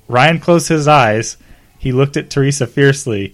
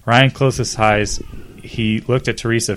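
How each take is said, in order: First: Dramatic read. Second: Said in the usual way. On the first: Shown as a demonstration.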